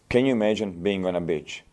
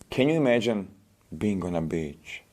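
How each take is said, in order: First: It is spoken in a flat, unengaged tone. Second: It is spoken in a soothing, evocative tone. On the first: The listener is not made to feel anything. The speaker calls it wrong. "I'm not making you feel anything" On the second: The listener is made to feel relaxed. The speaker calls it right. "You can make her feel like this as well"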